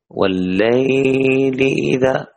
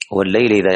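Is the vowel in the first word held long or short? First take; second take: long; short. First: The vowel in the first word is drawn out. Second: The vowel in the first word is kept short. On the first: The speaker calls it wrong. "ما يصلح هذا، هذا يمتنع" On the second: The speaker calls it right. "مد اللين عند الوصل ما يمد"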